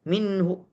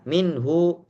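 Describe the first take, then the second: First: The final vowel is clipped short with a catch. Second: The final vowel is held at full length. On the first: The speaker calls it right. "Tapi caranya minhu. Karena kecil harokatnya kita batasi sehingga pita suara tertutup" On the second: The speaker calls it wrong.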